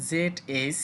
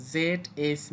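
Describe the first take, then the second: No difference in how they are said.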